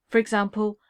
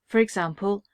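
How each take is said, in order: No difference in how they are said.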